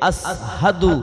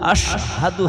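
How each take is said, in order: First: The middle consonant is a plain 's' sound. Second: The middle consonant is an 'sh' sound. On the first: The speaker calls it wrong. "বড় শিন উচ্চারণ করতে গেলে ছোট শিন হয়ে যেত" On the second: The speaker calls it right. "হতো না"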